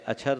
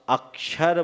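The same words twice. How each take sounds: First: The first syllable is short and unstressed. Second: The first syllable is stressed and lengthened. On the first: The speaker calls it wrong. "अक्षर तो नहीं बोलते हैं" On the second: The speaker calls it right. "हम अक्षर बोलते हैं, आ पर हमने जोर क्यों दिया"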